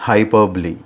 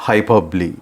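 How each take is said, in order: The two takes are said the same way.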